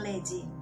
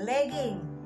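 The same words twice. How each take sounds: First: The middle consonant is a soft j sound. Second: The middle consonant is a hard g sound. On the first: The speaker calls it wrong. "bukan legging" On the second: The speaker calls it right. "Yang benar adalah legging"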